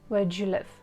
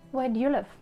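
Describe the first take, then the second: First: Do and you are joined with a 'j' sound. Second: Do and you are said without a 'j' sound. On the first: "you probably can hear j" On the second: "The first one"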